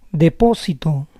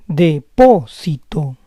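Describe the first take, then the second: First: Said in the usual way. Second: Depósito split as de-PÓ-si-to; syllable by syllable. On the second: Shown as a demonstration. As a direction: say Depósito in parts, stressing PÓ. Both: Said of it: "try to understand the rules".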